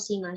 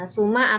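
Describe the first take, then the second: First: The first vowel is a front i sound. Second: The first vowel is a rounded u sound. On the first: "dikasrah sinnya juga" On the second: "dengan didhamah sin"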